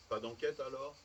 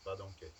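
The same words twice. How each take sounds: First: "Pas d'enquête alors" lifted as a query; checking question. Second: "Pas d'enquête" low and falling; final confirmation. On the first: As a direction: ask "alors" seeking confirmation. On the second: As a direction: close "d'enquête" as a settled answer. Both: A narrator's reading. Question, then confirming answer.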